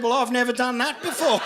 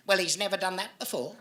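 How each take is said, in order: First: Mocking her words back with a straight face; deadpan punchline echo. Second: Lightly voiced prim old lady, brushing it off; a hint of a haughty old woman waving away blame; snooty old lady. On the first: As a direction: throw her own line back at her, dry. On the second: Old lady dismisses the bite.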